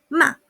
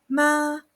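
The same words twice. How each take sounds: First: The syllable is short and forceful. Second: The pitch stays flat and level throughout. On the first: It means to scold. "bastante cortito y fuerte" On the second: It means mother. "El primer tono es planito, la voz queda ahí"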